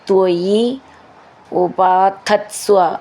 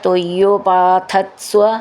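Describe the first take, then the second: First: The two words are said separately. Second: The two words are joined into one.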